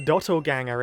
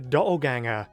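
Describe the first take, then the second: First: The middle T sound is clearly pronounced. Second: The middle T sound is dropped. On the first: "if you're not British and actually pronounce your T's" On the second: "unlike me"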